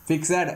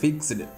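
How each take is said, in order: First: The ending is a separate extra syllable. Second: The ending joins the word with no extra syllable. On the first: The speaker calls it wrong. "அப்படின்னு சொல்கிறது இல்லை" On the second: The speaker calls it right. "இ silent"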